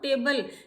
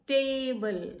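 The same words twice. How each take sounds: First: The first vowel is a short a sound. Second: The first vowel is a long a sound. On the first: The speaker calls it wrong. "It is not टेबल" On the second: The speaker calls it right. "ए का long sound है"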